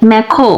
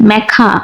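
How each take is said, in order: First: British-accent "ম্যাখো", ending in "kho"; British pronunciation. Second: American-accent "ম্যাখা", ending in "kha"; American pronunciation. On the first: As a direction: say "ম্যাখো" the British way, with rounded final oh. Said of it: "British অ্যাকসেন্টে বলা হয়". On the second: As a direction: say "ম্যাখা" the American way, with open final ah. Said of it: "American অ্যাকসেন্টে বলা হয়". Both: Shown as a demonstration.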